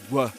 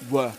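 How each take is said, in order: First: The vowel is reduced to a schwa. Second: The same.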